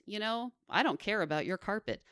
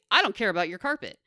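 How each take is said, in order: First: It is said in a nice, friendly tone. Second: It is said in a blunt, unfriendly tone.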